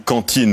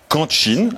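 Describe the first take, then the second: First: The t is a plain, clean stop. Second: The t has a hissing ts release. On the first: The older way of saying it. "On ne dit plus" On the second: The way people say it now. "on appelle ça des affrications"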